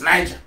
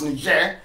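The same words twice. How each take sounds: First: The word is pronounced the English way. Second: The word is pronounced the French way. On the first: "we know it's Niger" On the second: "French pronounced Niger"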